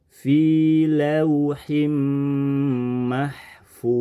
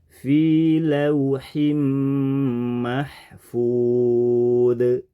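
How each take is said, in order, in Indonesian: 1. Konsonan akhir mengalir lancar tanpa memantul. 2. Konsonan akhir dilepas dengan memantul. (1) "seharusnya tidak boleh memantul, tapi mengalir" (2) "kita merubahnya jadi mantul"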